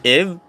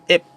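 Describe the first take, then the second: First: The word ends in a b sound. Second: The word ends in a p sound. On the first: "Third one is ib" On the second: "and pronunciation yan is ip"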